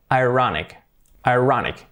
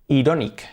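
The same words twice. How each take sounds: First: "ironic" said eye-RON-ik; English pronunciation. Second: "ironic" read as in Spanish, ee-RO-neek; Spanish-style reading. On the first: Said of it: "por lo tanto". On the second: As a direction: say "ironic" by its spelling, Spanish vowels. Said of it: "Casi como en español". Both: Shown as a demonstration.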